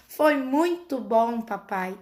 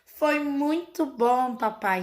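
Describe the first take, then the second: First: Slow, lilting copy of a cartoon line; echoing Peppa's tone. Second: Slow, lilting child's reply, lightly voiced; Peppa's singsong answer. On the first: Mother imitates her son echoing Peppa's intonation, slow. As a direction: say it just like Peppa, slow and singsong. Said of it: "na mesma entonação". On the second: Mother imitates Peppa answering Daddy Pig, slow and lilting. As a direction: draw out "Foi muito bom" like a cartoon piglet. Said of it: "Nessa entonação".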